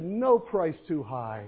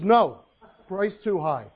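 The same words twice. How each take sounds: First: There is no pause after 'no'. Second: There is a pause after 'no'.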